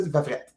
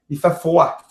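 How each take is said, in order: First: "fret" with a Quebec short vowel and sounded t; casual Quebec "fret"; Quebec word fret. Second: "froid" as fwa, open ending with no t; corrected, careful "froid"; standard French froid. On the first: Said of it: "J'ai dit fret. Vous dites pas ça". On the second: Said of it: "Vous dites pas ça, hein?". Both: Shown as a demonstration.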